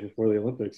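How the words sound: It is said in an imitation of someone's voice.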